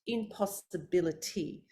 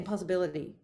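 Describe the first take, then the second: First: Every syllable is pronounced clearly and fully. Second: The syllables are slurred together and unclear. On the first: The speaker calls it right. "So important to pronounce every syllable" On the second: The speaker calls it wrong. "I don't say impossibility"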